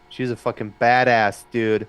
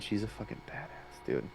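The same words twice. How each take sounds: First: It is said aloud, fairly loudly. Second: It is said in a whisper.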